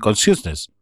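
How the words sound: It is said the British way. "Los británicos dicen consciousness"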